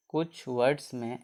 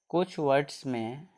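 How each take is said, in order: Both takes have the same delivery.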